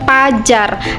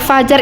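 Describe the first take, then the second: First: The word begins with a P sound. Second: The word begins with an F sound. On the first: "si pajar ini pelafa adalah adalah e, bentuk e, tulis yang tidak baku" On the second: "dalam tulisannya dia tertulis adalah fajar"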